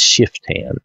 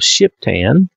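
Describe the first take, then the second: First: The consonant after 'Shi' is an f sound. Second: The consonant after 'Shi' is a p sound. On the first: The speaker calls it right. "That's the way we would say it with the PH anyway" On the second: The speaker calls it wrong.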